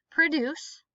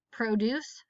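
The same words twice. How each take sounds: First: Produce as pruh-DUCE; stress on second syllable. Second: Produce as PRO-duce; stress on first syllable. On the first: Teacher reading word list aloud, stress on second syllable. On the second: Teacher reading word list aloud, stress on first syllable. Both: Shown as a demonstration. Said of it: "both of the different pronunciations".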